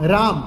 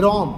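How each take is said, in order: First: The first vowel is an open 'aa' sound. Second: The first vowel is an open 'o' sound. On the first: This is the standard form. "આ કારાંત" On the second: This is the Charotar dialect form. "વિવૃત અ બોલે છે"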